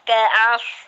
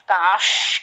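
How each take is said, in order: First: The s sound flows out smoothly. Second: The s sound is sprayed out forcefully. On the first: The speaker calls it right. "kaos, kaos, kayak itu" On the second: The speaker calls it wrong. "jangan menyembur, jangan os"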